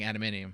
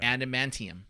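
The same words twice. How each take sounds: First: The N and T blend into a D. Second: The T sound is clearly pronounced. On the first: The speaker calls it wrong. "When I say it quickly, it sounds like" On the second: The speaker calls it right. "okay, that sounds better"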